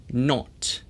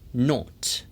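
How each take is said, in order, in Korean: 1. 영국식 억양으로 말합니다. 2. 영국식 억양으로 말합니다.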